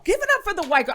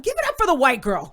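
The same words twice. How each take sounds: First: Higher, louder hype call; bigger emcee shout-out. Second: Loud hype call; rally the crowd; emcee shout-out. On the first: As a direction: push the crowd even harder. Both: Retold or imitated. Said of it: "he goes".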